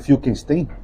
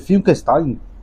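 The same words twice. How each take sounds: First: The name is said without German pronunciation. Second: The name is said with German pronunciation. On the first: "Eu não sei se o nome dele é Finkelstein" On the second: "se é de origem alemã... aqui pode ser Finkelstein, que eu acho que é o mais provável"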